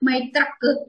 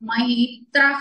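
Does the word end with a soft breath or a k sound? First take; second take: k sound; breath. First: The word ends with a hard k sound. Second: The word ends with a soft outward breath. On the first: The speaker calls it wrong. "మైత్రక్ అనక్కర్లేదండి" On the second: The speaker calls it right. "Breath out చేయాలి"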